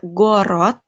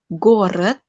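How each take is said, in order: First: The second vowel is a full 'o' sound. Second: The second vowel sounds like an 'e'. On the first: The speaker calls it wrong. "tidak Gorod" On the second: The speaker calls it right. "O yang di belakang dibacanya jadi E"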